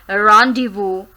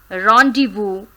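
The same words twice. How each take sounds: Both takes have the same delivery.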